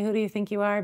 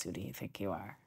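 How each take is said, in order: First: Mocking critic. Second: Much lower and softer, like a voice inside your head; inner critic voice. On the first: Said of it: "those people outside of us who say". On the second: Retold or imitated. The inner voice doubting herself, low and hushed. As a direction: murmur the doubt to yourself. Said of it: "the one inside that says".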